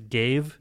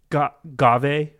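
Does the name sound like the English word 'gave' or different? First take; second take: like gave; different. First: The name sounds exactly like the word 'gave'. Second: The name does not sound like the word 'gave'. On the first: This is the official guide's pronunciation. The speaker calls it wrong. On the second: This is the speaker's own pronunciation. The speaker calls it right.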